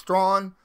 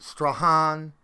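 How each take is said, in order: First: The name sounds like 'straw' plus an n. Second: The name does not sound like 'strawn'. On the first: The speaker calls it right. "It's like straw, but with an N at the end of it" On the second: The speaker calls it wrong. "not Strachan"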